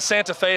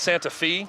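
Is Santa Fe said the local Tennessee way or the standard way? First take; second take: standard; local. First: It is said the standard, outside way. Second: It is said the local Tennessee way. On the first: This is how it is said elsewhere. "Instead of Santa Fe" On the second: This is how people here say it. "it's Santa Fe"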